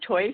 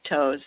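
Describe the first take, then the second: First: The vowel sounds like 'oy'. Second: The vowel sounds like 'oh'. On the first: This is the original German pronunciation. "it was pronounced Teufs in German" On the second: This is how many people commonly say it. "a lot of people pronounce it toes"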